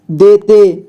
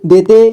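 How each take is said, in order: First: "देते" drawn out as de-te; beginner's reading of "देते" as de, te; sounded out by syllable. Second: Said in the usual way. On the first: Shown as a demonstration. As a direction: stretch both syllables of "देते". Teacher sounds out, then reads whole.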